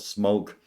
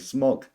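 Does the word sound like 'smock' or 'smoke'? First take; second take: smoke; smock. First: The word is said like 'smoke'. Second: The word is said like 'smock'. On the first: The speaker calls it wrong. "It's not smoke" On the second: The speaker calls it right. "I say smok"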